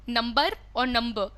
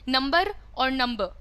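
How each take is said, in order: No difference in how they are said.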